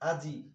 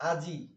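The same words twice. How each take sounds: The two takes are said the same way.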